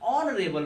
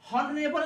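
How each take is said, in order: First: The word begins with a vowel sound. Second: The word begins with an h sound. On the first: The speaker calls it right. "ऑनरेबल बोलते हैं" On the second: The speaker calls it wrong. "हॉनरेबल नहीं बोलते"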